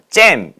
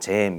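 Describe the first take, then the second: First: The word is said in a sharp, piercing way. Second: The word is said in a plain, ordinary way. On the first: "잼 이런 발음 있잖아요. 째지는 발음" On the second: "그냥 잼 이렇게 얘기하는 기보다는"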